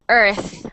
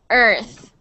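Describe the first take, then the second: The two takes are said the same way.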